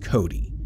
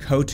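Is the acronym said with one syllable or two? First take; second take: two; one. First: It is said as two syllables, ending in 'ee'. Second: It is said as one syllable, ending in 't'. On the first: "I have always pronounced that as Cody" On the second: "not Cote"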